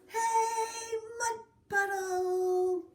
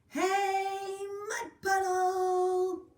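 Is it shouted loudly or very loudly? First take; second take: very loudly; loudly. First: It is shouted even more loudly. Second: It is shouted fairly loudly.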